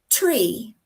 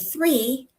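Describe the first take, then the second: First: The word begins with a T sound. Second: The word begins with a TH sound. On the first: "you may end up with tree" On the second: "the number three"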